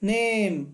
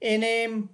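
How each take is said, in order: First: It begins with a plain 'n' sound. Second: It begins with the letter name 'en'. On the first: The speaker calls it right. "मूल रूप में एन हमें न ध्वनि देता है" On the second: The speaker calls it wrong. "क्या एन का उच्चारण करके इसे मैं पढ़ सकता हूँ एनेम"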